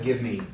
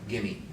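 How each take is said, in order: First: The two words are said separately and fully. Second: The two words are blended into one word. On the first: The speaker calls it wrong. "Not give me" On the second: The speaker calls it right. "G I M M E, gimme"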